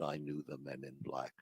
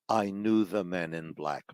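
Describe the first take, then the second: First: It is said at a normal, quieter volume. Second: It is said at a louder volume.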